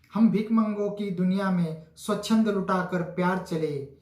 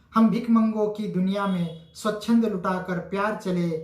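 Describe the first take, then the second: Both takes have the same delivery.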